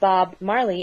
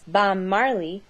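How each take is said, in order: First: The first word ends with a B sound. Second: The first word ends with an M sound.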